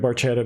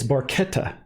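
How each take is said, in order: First: The word is said with English-style pronunciation. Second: The word is said with Italian pronunciation. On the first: The speaker calls it wrong. "that's the way he sings it" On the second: The speaker calls it right. "I'm told that it's Barchetta in Italian"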